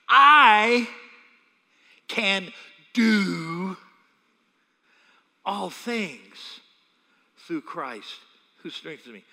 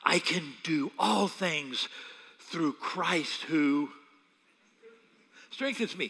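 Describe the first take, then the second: First: It is said with strong stress on I. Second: It is said plainly, with no special stress on I.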